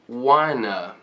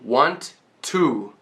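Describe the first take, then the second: First: The two words are linked into one. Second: The two words are said separately and clipped. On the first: The speaker calls it right. "linking these two words" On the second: The speaker calls it wrong. "very staccato"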